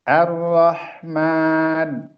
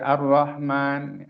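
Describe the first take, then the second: First: The 'h' sound is drawn out longer. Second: The 'h' sound is clipped short.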